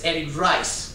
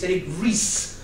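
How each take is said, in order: First: The surname sounds like the word "rice". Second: The surname does not sound like "rice". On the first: This is how most readers say the name. The speaker calls it wrong. "everyone that reads the book says" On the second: This is how the man himself says his name. The speaker calls it right. "he's not Eric Rice, he's Eric Ries"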